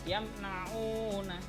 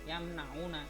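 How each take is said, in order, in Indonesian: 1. Vokal panjangnya ditahan dua ketukan. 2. Vokal panjangnya dipendekkan. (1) "yamnauna dua harokat itu kalau u" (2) "jadi o nya tidak boleh yamnauna, tidak boleh ya"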